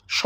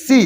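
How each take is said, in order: First: স as a bare "sho" sound, not "see"; wrong sound demo. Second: সি as a clear "see"; correct sound demo. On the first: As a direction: give স alone, without the "ee" vowel. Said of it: "এটা হবে না কিন্তু". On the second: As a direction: give সি alone with an "ee" vowel. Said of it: "কি হবে?". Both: Shown as a demonstration.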